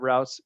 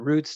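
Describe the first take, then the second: First: The vowel sounds like the one in out. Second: The vowel sounds like the one in boot. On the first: "In football, they call them routes" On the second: "that's the correct way to say it"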